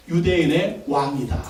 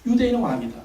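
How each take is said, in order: First: Slow, lower, weighty reading of 유대인의 왕이다; solemn inscription reading. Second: Said in the usual way. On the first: Shown as a demonstration. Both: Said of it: "그렇게 써붙였습니다".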